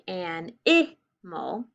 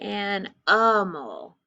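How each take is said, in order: First: The middle vowel is a short i sound. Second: The middle vowel is a weak uh sound. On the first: "so it can be a short I" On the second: "so it's I, animal, a"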